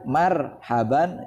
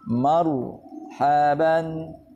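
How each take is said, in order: First: The r is said light, without heavy emphasis. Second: The r is said heavy, with full emphasis. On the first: The speaker calls it wrong. "ya tidak salah, tapi kurang tepat" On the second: The speaker calls it right. "sifat tafkhimnya harus dipenuhi"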